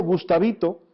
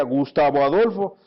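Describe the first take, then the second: First: Fond pet-name call, imitated; lightly voiced tender mother; affectionate mother. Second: Scolding mother. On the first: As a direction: say it like a mother calling her child lovingly. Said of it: "me decía con cariño". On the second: Retold or imitated. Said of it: "nos llama a veces por nuestro nombre completo".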